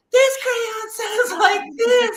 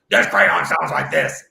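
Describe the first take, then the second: First: Very high, loud squeal, drawn out; Hannah's crayon voice. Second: Claire's crayon voice. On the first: Daughter showing dad how the crayon sounds, high squealed voice. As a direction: screech it like a silly little crayon. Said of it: "I gotta read it in that tone". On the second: Second daughter showing dad her crayon, slow put-on voice. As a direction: drag it out in a silly character voice. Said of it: "I gotta read it like that". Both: Retold or imitated.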